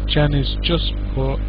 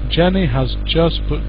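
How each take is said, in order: First: The word has is shortened onto the name. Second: The word has is said in full. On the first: The speaker calls it right. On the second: The speaker calls it wrong.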